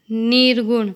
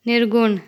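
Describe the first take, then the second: First: Long ee in "निर्गुण", like "नीर्गुण"; incorrect pronunciation. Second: Short i in "निर्गुण"; correct pronunciation. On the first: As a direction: say "निर्गुण" wrongly with a stretched first vowel. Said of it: "अशुद्ध शब्द". ("निर्गुण" का अशुद्ध उच्चारण, लंबी ई) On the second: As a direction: say "निर्गुण" with a brief first vowel. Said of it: "शुद्ध शब्द". ("निर्गुण" का शुद्ध उच्चारण, छोटी इ) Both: Shown as a demonstration.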